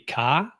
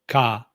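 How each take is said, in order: First: The pitch rises through the syllable. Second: The pitch stays level throughout. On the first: "ka would be up"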